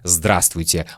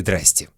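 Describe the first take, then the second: First: Every syllable of the word is said in full. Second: The word is clipped to two short syllables. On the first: This is the textbook form, not everyday speech. "Мы не говорим в нормальной жизни «здравствуйте»" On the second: This is how people really say it in everyday life. "Мы говорим «здрасте»"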